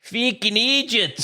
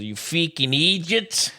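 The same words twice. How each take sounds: First: Put-on Freaking idiots pushed higher and harder in a British accent, slow; louder British accent. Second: Put-on a light British accent on You freaking idiots, slow; British accent catchphrase. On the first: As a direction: punch it out in a mock British accent. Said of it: "you don't have to say it louder". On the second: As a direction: try out a British lads' phrase in an accent, slow. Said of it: "you're horrible at accents".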